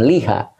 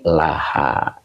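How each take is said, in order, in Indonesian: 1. Huruf vokal pertamanya adalah i. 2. Huruf vokal pertamanya adalah a. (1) "Bukan liha" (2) "tetapi laha"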